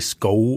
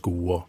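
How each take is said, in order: First: The vowel glides as a diphthong. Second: The vowel is a single steady sound. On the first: This is how the older generation speaks. "Bruk diftongene" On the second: This is how today's young people speak. "mens dagens ungdom sier jo"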